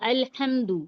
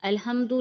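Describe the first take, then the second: First: The h is a harsh, deep throat sound. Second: The h is a soft, light breath. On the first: The speaker calls it right. "जैसे हम पढ़ते हैं अल्हम्दु" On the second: The speaker calls it wrong. "अल्हम्दु नहीं कहेंगे हम"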